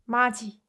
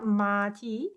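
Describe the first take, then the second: First: The last syllable starts with a 'j' sound. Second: The last syllable starts with a 't' sound. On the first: The speaker calls it right. "It should be pronounced 마지" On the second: The speaker calls it wrong. "It's not 마티"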